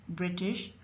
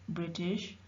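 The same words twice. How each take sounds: No difference in how they are said.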